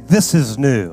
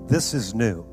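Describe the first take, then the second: First: It is said in a bold, confident voice. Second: It is said in a plain, ordinary voice. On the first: "Say it with some boldness" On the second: "Say this with me"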